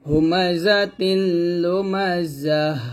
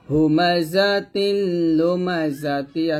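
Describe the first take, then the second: First: The final word ends in a soft h sound. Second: The final word ends in a t plus vowel. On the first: The reader stops at this word. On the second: The reader continues past this word.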